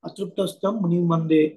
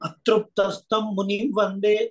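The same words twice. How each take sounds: First: The ṛ syllable is said plainly and lightly. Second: The ṛ syllable is said with extra force. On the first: The speaker calls it right. "అది సరళంగా పలకాలి" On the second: The speaker calls it wrong. "That stress is not required there"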